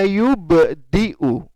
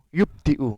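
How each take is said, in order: First: The b is released with an echoing bounce. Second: The b is stopped flat without a bounce. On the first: The speaker calls it right. "jadi harus memantul" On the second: The speaker calls it wrong. "nggak boleh"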